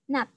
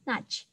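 First: The word ends in a t sound. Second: The word ends in a ch sound. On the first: The speaker calls it right. "Jadi bacanya adalah nut" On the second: The speaker calls it wrong. "bukan nudge"

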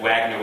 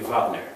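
First: The name begins with a W sound. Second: The name begins with a V sound.

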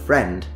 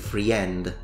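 First: The word is said with one vowel sound after the 'r'. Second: The word is said with an extra vowel sound after the 'r'. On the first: The speaker calls it right. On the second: The speaker calls it wrong.

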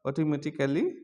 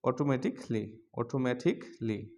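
First: A full vowel is sounded before the final -ly. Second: The k runs straight into the final -ly. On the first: The speaker calls it wrong. "এতদিন আমরা শিখেছিলাম অটোমেটিক্যালি" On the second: The speaker calls it right. "এখন আমরা এটা বলবো অটোমেটিকলি"

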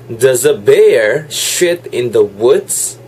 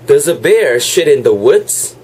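First: It is said more slowly. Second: It is said at normal speed.

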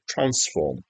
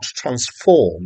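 First: The stress is on the first syllable. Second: The stress is on the second syllable. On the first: It is the noun. The speaker calls it right. "transform with the emphasis on the first syllable" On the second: It is the verb. The speaker calls it wrong. "not transform with the emphasis on the second syllable"

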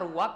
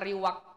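First: The first vowel is a u sound. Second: The first vowel is an i sound. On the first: The speaker calls it wrong. "bukan domah" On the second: The speaker calls it right. "penyebutan yang fasih itu adalah dengan mengharokati kasrah"

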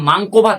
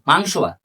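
First: The first word ends with a k sound. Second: The first word ends with an s sound. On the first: The speaker calls it wrong. "ওটা মাংক ভাত না" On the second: The speaker calls it right. "ওটা মাংস ভাত"

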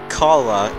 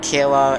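First: The first syllable sounds like car. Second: The first syllable does not sound like car. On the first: This is how the team itself says the name. "Carla as in vroom vroom vroom, that's how they pronounce it. Like a car" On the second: This is how many people say the name. "I've heard a lot of people say the name like Kayla"

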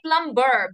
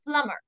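First: The b sound is pronounced in the word. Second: The b sound is silent in the word. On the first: The speaker calls it wrong. "Don't say plumber" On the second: The speaker calls it right. "be silent in this, and it is pronounced as plumber"

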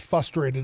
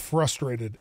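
First: The R after the F is dropped. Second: The R after the F is pronounced. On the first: The speaker calls it wrong. "when people say frustrated" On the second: The speaker calls it right. "There's an R in it"

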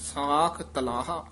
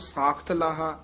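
First: The two words are kept clearly separate. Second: The words run together with a doubled t sound. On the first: The speaker calls it right. "ਨਖੇਰ ਕੇ ਪੜਨਾ" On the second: The speaker calls it wrong. "ਆਮ ਸਾਖ ਤਲਾਹਾ, ਤੱਤਾ ਵੀ ਲਾ ਦਿੰਦੇ"

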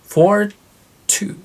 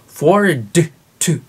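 First: The d is held silently before the t. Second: The d is fully released before the t. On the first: The speaker calls it right. "d で止めます。そしてt で出します。" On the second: The speaker calls it wrong. "forward to ではありません。"

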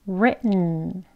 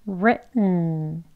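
The two takes are said the same way.

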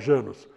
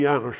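First: The name is said with Brazilian Portuguese-style sounds. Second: The name is said with Hungarian-style sounds. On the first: This is how people around here usually say it. "mas a gente fala" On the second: This is how the name is properly pronounced. "a pronúncia correta é"

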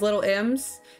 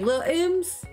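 First: The word 'little' is said in full with two syllables. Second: The word 'little' is shortened to one syllable, 'lil'. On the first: The speaker calls it wrong. "Emily's nickname is Little M's" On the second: The speaker calls it right. "You gotta say Lil M's"

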